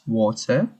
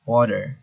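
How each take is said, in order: First: British water with a crisp T, no final R; British pronunciation. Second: American water with flapped T and final R; US accent. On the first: Teacher contrasting British water with US, British pronunciation. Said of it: "in British it's water". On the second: Teacher contrasting US water with British, American accent. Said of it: "U S it's water". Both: Shown as a demonstration.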